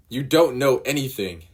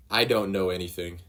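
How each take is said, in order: First: Higher and louder, bitter retort; angry retort. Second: Said in the usual way. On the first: Acted. Nami lashing out at Luffy, angry retort. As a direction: throw it at him in anger.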